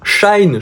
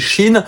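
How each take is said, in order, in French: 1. Ça ressemble au mot anglais 'shine'. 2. Ça ressemble au mot français 'Chine'. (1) "je crois que ça se prononçait Shine au départ" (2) "c'est Chine, comme le pays la Chine"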